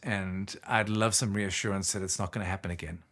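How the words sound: It sounds slow, deep and soft.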